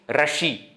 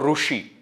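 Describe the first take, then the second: First: The r is followed by an a vowel. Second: The r is followed by a u vowel. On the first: "I am not saying Rashi" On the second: "I am not saying ... Rushi"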